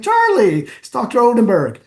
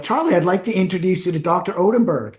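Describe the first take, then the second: First: High, loud, emphatic call of the name; pointed hint. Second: Said in the usual way. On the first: Retold or imitated. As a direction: nudge him insistently, pitched way up. Prompting the mayor to remember.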